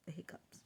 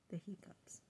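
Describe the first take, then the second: First: Soft repeat of the hiccups; whispered. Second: Whispered. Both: Real, not acted. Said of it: "repeated softly".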